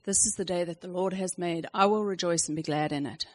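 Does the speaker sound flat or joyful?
flat. It is said flatly, with a sigh.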